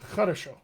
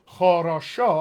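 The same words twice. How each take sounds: First: The vowels are reduced to quick uh sounds. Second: The vowels are all full, clear oh sounds. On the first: "I get хорошо. Just as uh instead of an oh" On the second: "rather than"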